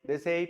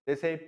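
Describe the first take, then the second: Both takes have the same delivery.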